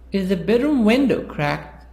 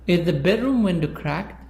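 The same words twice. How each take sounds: First: The word window carries the main stress. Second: The word bedroom carries the main stress. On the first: The question is about which part of the room it is. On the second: The question is about which room it is.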